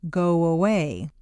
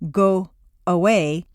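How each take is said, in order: First: The words are joined by a light W glide. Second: The words are split apart with a break. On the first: The speaker calls it right. "a W quite naturally leads into the next vowel sound" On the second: The speaker calls it wrong. "You don't want to say go away and break the undercurrent of your voice"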